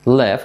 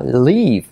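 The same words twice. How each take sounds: First: "live" as "lef", like the start of elefante; short open E in "live"; I pronounced like E. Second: "leave" with a clear Spanish I; stretched "liiv" for "leave"; Spanish-style long I. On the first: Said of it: "como elefante". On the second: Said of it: "I española". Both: Shown as a demonstration.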